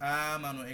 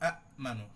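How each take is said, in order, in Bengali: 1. প্রথম স্বরটি লম্বা টানা, কোনো গলার বিরাম নেই। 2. গলার বিরাম ছোট প্রথম স্বরটিকে বন্ধ করে দেয়। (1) "আমরা এটা বদল করছি" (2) "তাহকিক যদি অরিজিনাল পড়ি"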